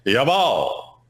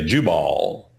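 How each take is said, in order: First: It is pronounced the Hebrew way, like Jawohl. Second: It is pronounced the familiar English way. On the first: The speaker calls it right. "They'd say Jabal. Almost sound like the German, Jawohl" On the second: The speaker calls it wrong. "wouldn't say Jubal"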